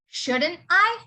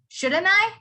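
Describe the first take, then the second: First: Each word is said fully and separately. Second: The words are run together in relaxed speech. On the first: "you normally say this as" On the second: "when you say it in a colloquial way"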